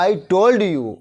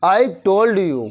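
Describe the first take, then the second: First: Said in the usual way. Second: Drawn out, word by word; slow repeat. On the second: Shown as a demonstration. Teacher repeating for students, slow and spaced. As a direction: repeat it slowly for the class. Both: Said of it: "क्या कहा था मैंने?".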